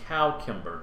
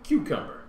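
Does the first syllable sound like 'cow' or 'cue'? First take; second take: cow; cue. First: The first syllable sounds like 'cow'. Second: The first syllable sounds like 'cue'. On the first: This is the older pronunciation. "a pronunciation of the first syllable as cow" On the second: This is the modern pronunciation. "now it's evolved into"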